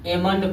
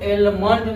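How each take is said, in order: First: The L sound is silent. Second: The L sound is pronounced. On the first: The speaker calls it right. "इसको एमंड पढ़ा जाता है" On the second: The speaker calls it wrong. "इसको एलमंड नहीं पढ़ा जाता है"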